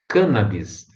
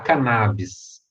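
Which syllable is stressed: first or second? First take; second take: first; second. First: The stress is on the first syllable. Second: The stress is on the second syllable. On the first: The speaker calls it right. "A pronúncia correta, gente, é cannabis, proparoxítona" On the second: The speaker calls it wrong. "Todo mundo fala cannabis"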